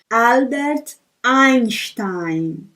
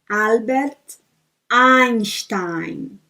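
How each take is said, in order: The two takes are said the same way.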